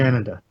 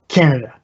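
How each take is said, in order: First: The opening K sound is soft and relaxed. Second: The opening K sound is hard and forceful. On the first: This is how Canadians say it. "just more relaxed" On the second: This is how some Americans say it. "it's like a hard K almost, like Canada"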